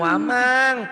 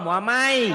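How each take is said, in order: First: The final n sound is clearly pronounced. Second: The final n sound merges into the next sound. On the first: The speaker calls it wrong. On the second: The speaker calls it right. "itu idgom"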